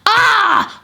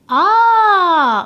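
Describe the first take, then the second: First: It sounds angry and frustrated. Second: It sounds like calm understanding.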